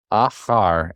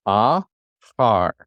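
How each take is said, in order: First: "Ah, har" joined with barely a break; syllables put together. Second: "Ah, har" in two separate pieces, pause between; syllables apart. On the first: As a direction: blend "Ah" and "har" into one word. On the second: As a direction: sound out "Ah", wait, then "har". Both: Shown as a demonstration. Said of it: "put these together".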